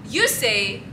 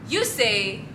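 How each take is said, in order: The two takes are said the same way.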